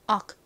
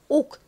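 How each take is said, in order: First: The vowel sounds like 'uh', an American pronunciation. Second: The vowel sounds like 'oh', a Korean-style pronunciation. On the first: "미국식 발음으로는 어와 같이 발음됩니다" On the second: "한국식으로는 옥 이렇게 보통 표기하고 발음합니다"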